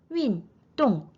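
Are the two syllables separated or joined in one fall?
separated. The two syllables are said separately, with a break. The speaker calls it wrong. "윈, 똥 이게 아니라"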